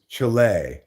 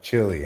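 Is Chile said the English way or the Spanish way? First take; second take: Spanish; English. First: It is said with a Spanish-style pronunciation. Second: It is said with an English-style pronunciation. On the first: This is the official name now. The speaker calls it right. "That's the official way to pronounce it" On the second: This is the name no longer allowed. The speaker calls it wrong. "It's not Chile anymore"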